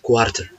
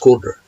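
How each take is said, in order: First: The t is a clear, hard t sound. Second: The t is a soft American flap.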